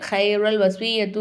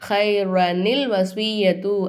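First: The words join without any added 'ni' sound. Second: An added 'ni' sound links the two words. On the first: The speaker calls it wrong. "ஹைரல் வஸ்வியத்து அப்படின்னு சொல்லக்கூடாது" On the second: The speaker calls it right. "ஹைரனில் வஸ்வியத்து அப்படின்னு சொல்லிட்டு"

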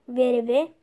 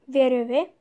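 The two takes are said the same way.

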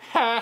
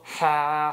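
First: The laugh is in a high voice. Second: The laugh is in a low voice.

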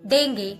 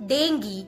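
First: It is said with an American pronunciation. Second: It is said with a British pronunciation. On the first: "when it comes in American pronunciation, people call it dengue" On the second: "in British and in Indian pronunciation, call it dengue"

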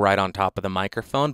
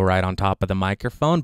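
First: The voice is close with most bass removed. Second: The voice is close with some bass removed. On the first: "the most extreme version of the high pass filter" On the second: "the high pass filter is set to the middle setting"

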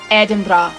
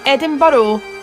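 First: The name is pronounced the Scottish way. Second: The name is pronounced the American way. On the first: The speaker calls it right. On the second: The speaker calls it wrong.

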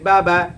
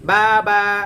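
First: The vowels are short and quick. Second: The vowels are drawn out slowly. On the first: The speaker calls it right. "উচ্চারণটা হবে খুবই speed" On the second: The speaker calls it wrong. "কিন্তু পরে আস্তে আস্তে টান দিয়া"

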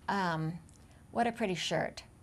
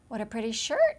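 First: The voice falls at the end. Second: The voice rises at the end. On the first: The line is plain and not funny. The speaker calls it wrong. "that's not very comedic" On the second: The line is light and funny. The speaker calls it right. "if you say it with a game and an up tilt"

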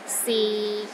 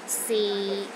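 First: The pitch is low and steady throughout. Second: The same.

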